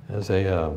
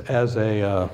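Both takes have the same delivery.

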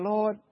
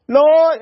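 First: Said in the usual way. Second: Loud, high mock cry for help; acted desperate call, pitched up; panicked prayer. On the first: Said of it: "instead of saying". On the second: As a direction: cry out as if the storm is winning. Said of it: "you come there praying".

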